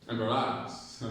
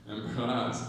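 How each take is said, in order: Both takes have the same delivery.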